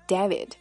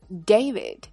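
First: The first vowel is not an 'ay' sound. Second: The first vowel is an 'ay' sound. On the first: The speaker calls it wrong. "它不能读作David" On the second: The speaker calls it right. "字母A 发它的本音A"

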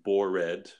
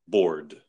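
First: The ending is said as an extra syllable. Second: The ending is said as a plain D sound. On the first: The speaker calls it wrong. "So we wouldn't say bored" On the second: The speaker calls it right. "It's one of the ED words that has a D sound. So you can imagine there's no E"

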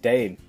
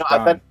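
First: The vowel sounds like 'ay'. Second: The vowel sounds like 'eye'. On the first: The speaker calls it wrong. "because you said dame" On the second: The speaker calls it right. "I'm pretty sure it's dime"

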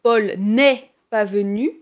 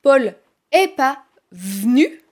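First: The 'n' sound before 'est' is said. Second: The 'n' sound before 'est' is dropped. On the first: "au lieu de dire" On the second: "je vais supprimer le « n »"

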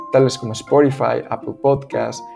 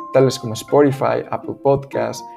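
The two takes are said the same way.

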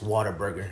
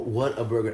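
First: An 'er' sound follows 'what'. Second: No 'er' sound follows 'what'. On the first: The speaker calls it right. "No, it's Whataburger. There's an ER in that" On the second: The speaker calls it wrong. "people go"

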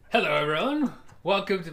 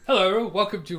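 First: It is spoken in a put-on accent. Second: It is spoken in a natural voice.

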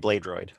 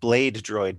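First: The two words are run together casually. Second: Each word is pronounced very carefully and distinctly. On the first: The speaker calls it right. "but really you're going to say Blade Droid" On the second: The speaker calls it wrong. "I always want to over enunciate Blade Droid"

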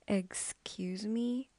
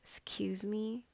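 First: The word starts with a full 'eggs' sound. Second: The first vowel is dropped, starting with 's'. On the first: The speaker calls it wrong. "instead of pronouncing X, X, I hear eggs, eggs" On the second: The speaker calls it right. "So not more of X, but more of S"

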